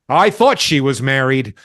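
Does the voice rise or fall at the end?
fall. The voice falls at the end, like a statement.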